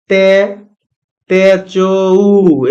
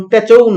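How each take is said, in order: First: তেচৌ drawn out very slowly, ending on ou; wrong pronunciation. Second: তেচৌ with a closing ou glide; wrong pronunciation. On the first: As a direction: stretch তেচৌ slowly, gliding into ou. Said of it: "এরকম না". (খুব ধীরে টেনে তেচৌ, ঔ-কার দিয়ে) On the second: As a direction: say তেচৌ ending in a clear ou. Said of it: "এটা কিন্তু উচ্চারণ তেচৌ না". (তেচৌ, শেষে ঔ-কার দিয়ে ভুল উচ্চারণ) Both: Shown as a demonstration.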